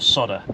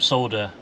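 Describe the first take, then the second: First: It is said in an American accent. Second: It is said in a British accent.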